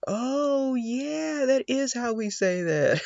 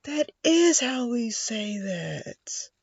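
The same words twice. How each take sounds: First: High surprised oh yeah; light up at the translation; surprised realization. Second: "That is how we say that" drawn out high and slow; slow high realization. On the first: A learner seeing the English translation, high and surprised. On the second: A learner repeating the line, high and drawn out. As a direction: stretch it out in amazed realization. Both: Retold or imitated.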